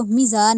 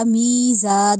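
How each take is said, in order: First: میزان with a clipped short mi; short meem. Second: میزا with mi drawn out; long meem. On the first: Teacher shows wrong short meem in میزان. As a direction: rush the mi of میزان. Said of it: "میزان نہیں پڑھا". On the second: Teacher models long meem in میزا. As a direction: stretch the mee of میزا. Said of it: "میزان پڑھا ہم نے اس کو". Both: Shown as a demonstration.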